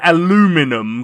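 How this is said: The word is said the American way, four syllables. The speaker calls it wrong. "that's how Americans do it"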